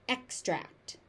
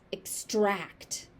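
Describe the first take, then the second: First: The stress is on the first syllable. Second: The stress is on the second syllable. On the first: It is used as a noun. "As a noun, it's an extract" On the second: It is used as a verb. "As a verb, it's extract"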